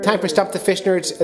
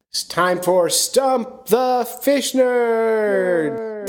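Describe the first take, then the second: First: Higher, punchy segment intro; announcer voice. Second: Drawn-out, high showman call; announcer voice. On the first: Host repeating the segment name, punchy announcer read. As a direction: sell the title like a radio jingle. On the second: Host kicking off the call-in segment, big announcer voice. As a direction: stretch it out like a game-show host. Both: Acted.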